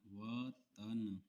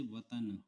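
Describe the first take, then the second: First: वतन stretched very slowly syllable by syllable; slow dictation. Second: Said in the usual way. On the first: Shown as a demonstration. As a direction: drag out वतन as if dictating for shorthand. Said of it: "इसकी practice आप देख लीजिए". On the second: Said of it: "जैसे वतन".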